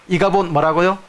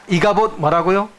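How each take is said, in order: The two takes are said the same way.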